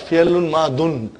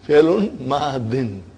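First: The last word ends with an -un sound. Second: The last word ends with an -in sound. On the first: The speaker calls it wrong. "Not Fialun Madun" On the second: The speaker calls it right. "Again two kasras"

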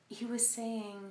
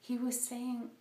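Both takes have the same delivery.

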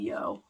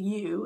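First: The word ends with an 'oh' vowel. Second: The word ends with an 'oo' vowel. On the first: "One of my exes used to say yo" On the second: "a lot of people know it as the U"

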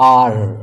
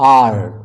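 No difference in how they are said.

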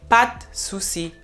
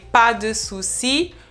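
First: The vowel in "de" is almost dropped. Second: The vowel in "de" is clearly pronounced. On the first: The speaker calls it right. "you almost don't hear the E in de" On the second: The speaker calls it wrong. "People would not say pas de souci"

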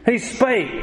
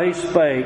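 First: It is read in an excited, joyful way. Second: It is read in a gloomy, downcast way. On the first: The speaker calls it right. "you say that with excitement" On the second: The speaker calls it wrong. "You don't read that verse down in the dumps"

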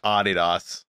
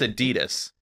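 First: The name is pronounced the German way. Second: The name is pronounced the American way. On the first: The speaker calls it wrong. "not Adidas ... It's German" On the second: The speaker calls it right. "it's Adidas ... but we're in America"

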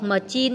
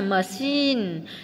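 First: The middle consonant sounds like 'ch'. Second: The middle consonant sounds like 'sh'. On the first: The speaker calls it wrong. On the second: The speaker calls it right.

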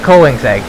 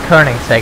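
First: The name is pronounced the English way. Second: The name is pronounced the Swedish way.

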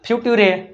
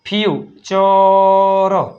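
First: The middle consonant is a t sound. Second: The middle consonant is a ch sound. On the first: The speaker calls it wrong. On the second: The speaker calls it right.

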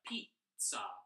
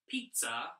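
First: The word is said very slowly. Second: The word is said quickly. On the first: The speaker calls it right. "but pizza. Also very slow" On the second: The speaker calls it wrong. "Not pizza"

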